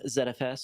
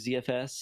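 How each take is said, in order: First: The letters are said in a non-American way. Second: The letters are said the American way.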